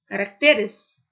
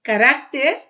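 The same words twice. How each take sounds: First: "caracteres" stressed on TE, louder; "caracteres" com acento em TE. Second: "Caráter" with the stress on RÁ, louder; "Caráter" com acento em RÁ; stress on the second syllable. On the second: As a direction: lean on RÁ in "Caráter". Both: Shown as a demonstration.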